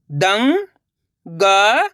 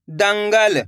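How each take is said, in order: First: दंगल split into very slow syllables. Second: Said in the usual way. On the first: Shown as a demonstration. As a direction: sound out दंगल letter by letter. (दंगल को अक्षर-अक्षर बोलना) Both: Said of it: "चलिए देखिए".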